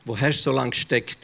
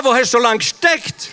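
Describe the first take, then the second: First: Much lower and softer, musing; a hushed, thoughtful repeat; quiet reflective echo. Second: Higher, louder joyful question; glad, impatient welcome; eager reproach. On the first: Acted. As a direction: turn the question on yourself softly. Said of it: "Ab und zu denke ich". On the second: Retold or imitated. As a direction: burst out as if he should have come long ago. Imams greet the long-awaited messenger.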